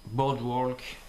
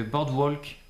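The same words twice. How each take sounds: First: Boardwalk said the American way, bɔdwɔlk with the r dropped; American pronunciation. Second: Said in the usual way. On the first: Shown as a demonstration. Vlogger correcting the brand name to American, American pronunciation. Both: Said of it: "si on le prononce à l'américaine".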